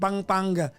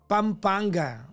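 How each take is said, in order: First: The word is said without the M sound. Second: The word is said with the M sound.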